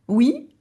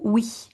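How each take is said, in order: First: Said in the usual way. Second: "oui" ending in a voiceless palatal hiss; oui with ich-sound. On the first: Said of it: "on peut dire oui". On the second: Shown as a demonstration. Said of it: "ce son-là, le hi".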